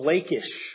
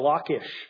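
First: The name is said with an English pronunciation. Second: The name is said with a Hebrew pronunciation. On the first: "depending on how you want to say it in English" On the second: "or Hebrew"

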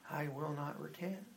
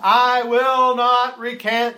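First: The words are said quietly in a monotone. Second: The words are shouted loudly and forcefully. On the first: "historians say he kind of said" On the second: "He didn't shout it like we've seen in the movies"

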